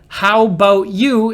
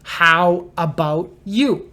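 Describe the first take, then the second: First: 'About' is shortened and run together quickly. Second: 'About' is said in full, more slowly.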